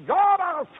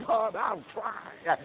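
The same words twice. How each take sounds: First: High, hollered pledge to God; impassioned pulpit shout; shouted vow. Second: Slow, raised preacher's vow; fervent, stretched pledge to God; earnest vow. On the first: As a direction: cry it out at the top of the climb. Climax of the repeated vow. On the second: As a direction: draw the promise out, lifting the pitch. Vow repeated with rising force. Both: Retold or imitated.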